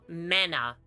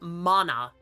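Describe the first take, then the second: First: The first vowel sounds like 'a' in 'man'. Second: The first vowel is an open 'ah' sound. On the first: The speaker calls it wrong. "not mana" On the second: The speaker calls it right. "The ah adds so much"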